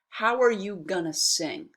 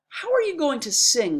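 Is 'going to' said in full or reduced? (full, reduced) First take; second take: reduced; full. First: 'Going to' is squeezed together into 'gonna'. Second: Each word of 'going to' is said in full.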